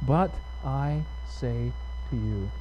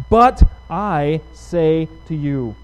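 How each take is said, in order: First: Slow, soft, word-by-word repetition; quiet, deliberate quoting for focus; hushed emphasis. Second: "But I say to you" slow, each word weighted and projected; "But I say to you" in a firm, drawn-out proclamation; emphatic declaration. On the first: Shown as a demonstration. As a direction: lower the volume and space out each word. Repeats phrase to focus on it. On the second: Acted. Preacher declaims the key scripture phrase.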